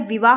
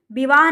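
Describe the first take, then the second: First: Said in the usual way. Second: विवाह with b in place of v; wrong pronunciation. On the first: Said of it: "दोनों जगह वा बनता है". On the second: Shown as a demonstration. Teacher shows the misspelling, said with b. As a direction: turn the v of विवाह into b. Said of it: "विवाह नहीं होता है".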